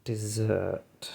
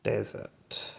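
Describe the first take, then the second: First: "Desert." said as dessert, stress on the second syllable; soft, musing "Desert." with the stress at the end; dessert pronunciation. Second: "Desert." said as the sandy place, stress on the first syllable; quiet, trying-out "Desert." stressed up front; desert pronunciation. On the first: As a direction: say "Desert." like the sweet, dih-ZURT. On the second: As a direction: say "Desert." as DEZ-ert. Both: Shown as a demonstration. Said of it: "they've just got two different pronunciations".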